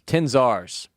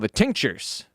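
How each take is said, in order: First: The name sounds like 'ten-zars'. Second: The name sounds like the word 'tinctures'. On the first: The speaker calls it right. "That's definitely how it's pronounced" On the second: The speaker calls it wrong. "I don't think that's how it's pronounced"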